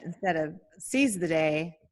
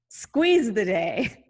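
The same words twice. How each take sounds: First: Said in the usual way. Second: "squeeze" stretched long with a rise; squeeze drawn out slowly. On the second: Shown as a demonstration. Host unveiling her new pun, "squeeze" stretched. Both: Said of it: "I said, instead of seize the day, squeeze the day".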